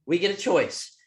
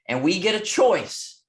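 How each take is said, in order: First: Said in the usual way. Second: Slow, louder, leaning on "get"; emphatic repeat. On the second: Shown as a demonstration. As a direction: hit "get" in "And we get a choice" hard and slow.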